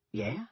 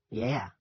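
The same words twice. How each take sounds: First: "Yeah" with a rising tune; questioning "Yeah?". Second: "Yeah" with a falling tune; confirming "Yeah". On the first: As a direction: ask "Yeah" as a brief question. Soldier's question, answered by Ollie. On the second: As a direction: answer "Yeah" as a simple statement. Ollie confirms. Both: A narrator's reading.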